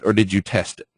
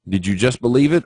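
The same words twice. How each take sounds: First: Or stressed, settling down at the end; falling answer on or. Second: It lifted at the end, asking; rising question on it. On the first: Teacher to trading students, answering question with falling end. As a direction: land firmly on or. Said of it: "same question reordered, falling". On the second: Teacher to trading students, probing question with rising end. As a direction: rise on the final word it. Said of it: "same question reordered, rising". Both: Shown as a demonstration.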